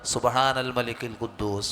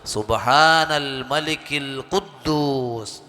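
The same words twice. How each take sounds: First: It is said short and at normal volume. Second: It is drawn out and said loudly.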